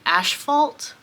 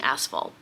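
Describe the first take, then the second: First: The first syllable has an sh sound. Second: The first syllable has a plain s sound. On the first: The speaker calls it wrong. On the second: The speaker calls it right.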